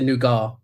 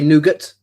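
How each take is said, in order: First: It is said the British way. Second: It is said the American way.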